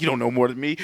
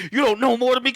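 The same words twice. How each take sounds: First: Said in the usual way. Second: Higher, heated repeat of the line; raised-pitch pretend rage; mock angry outburst. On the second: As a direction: snap it as a hammed-up attacker. Acted killer line repeated, intensified.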